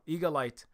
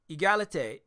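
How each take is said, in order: First: The first syllable sounds like 'eagle'. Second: The first syllable sounds like 'egg'. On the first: The speaker calls it wrong. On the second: The speaker calls it right.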